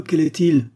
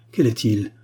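First: "quel est-il" pushed higher and louder, falling at the end; insistent repeated question. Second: "Quel est-il" asked at normal pitch, falling at the end; anxious question. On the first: Marquise demands the man's identity from her mother, "quel est-il" raised and insistent. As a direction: press hard on "quel est-il", raised and urgent. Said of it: "Encore une fois". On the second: Marquise asks her mother who wrote the reply, "Quel est-il" in contained emotion. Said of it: "trahissait l'émotion". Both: A narrator's reading.

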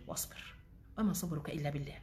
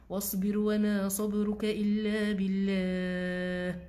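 First: Soft, murmured verse; quiet recitation. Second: Drawn-out, chant-like recitation; slow Quranic recitation. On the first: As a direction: say the verse softly to yourself. Repeating the verse softly. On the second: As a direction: stretch each word like tajweed. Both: Acted.

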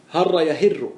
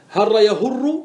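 First: يهر said with kasra, yahirru; يهر with i after the ha; kasra form. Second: يهر said with damma, yahurru; يهر with u after the ha; damma form. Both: Shown as a demonstration. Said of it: "بالضم وبالكسر".

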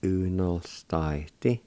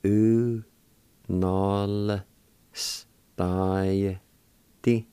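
First: Said in the usual way. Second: U, nol, stai, ti, each drawn out separately; syllable by syllable. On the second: Shown as a demonstration. Teacher sounding out the word for meals, slow and broken up. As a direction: hold each of U, nol, stai, ti with pauses between. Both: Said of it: "like this".

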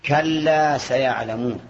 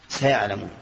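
First: Drawn out slowly like Quran recitation. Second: Said in the usual way. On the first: Shown as a demonstration. Teacher quoting the verse to students, slow recitation. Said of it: "Quranic verse quoted in a lesson". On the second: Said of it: "teacher picks out the verb".

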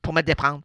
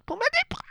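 First: Said in the usual way. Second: Much higher, pleading repeat; lovesick repeat. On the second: Acted. Echoing his own plea to Lainey, high and pleading. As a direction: sing it up high like a lovestruck fool.

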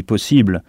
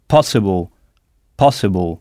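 First: Possible said the French way, stress on the final syllable; French stress on the last syllable of possible; French pronunciation. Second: Possible in English, stress hit hard on pos, ending swallowed; English pronunciation. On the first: Possible à la française, accent sur la fin. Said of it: "En français, on dit possible". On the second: Teacher models possible in English, stress on pos. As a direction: stress the first syllable of possible. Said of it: "sur la syllabe qui précède cette terminaison". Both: Shown as a demonstration.

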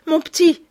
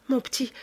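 First: Much higher and louder cry of begging; desperate plea. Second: A gentle, higher plea; pleading. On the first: Victoire begs Lupin to spare Sholmès, crying out loud. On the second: Victoire begs Lupin to let go, gently pleading. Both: Acted. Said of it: "supplia Victoire".

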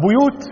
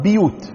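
First: "بيوت" as buyut, u on the first b; "بيوت" with a rounded bu-; "بيوت" بضم الباء; damma on ba. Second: "بيوت" as biyut, i on the first b; "بيوت" with a front bi-; "بيوت" بكسر الباء; kasra on ba. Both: Shown as a demonstration. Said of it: "بكسر الباء أو بضم الباء".

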